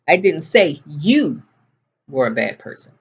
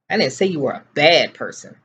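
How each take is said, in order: First: The word 'you' carries the main stress. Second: The word 'bad' carries the main stress. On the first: The speaker said it about someone else. "I said your brother was a bad person" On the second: The speaker said something else about the listener. "I said you were completely ignorant"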